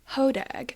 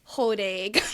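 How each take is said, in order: First: It is said with a general American pronunciation. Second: It is said with a northern Wisconsin pronunciation. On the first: "which is how the majority of the country pronounces it" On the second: "if you are to visit the great state of Wisconsin, particularly the northern part"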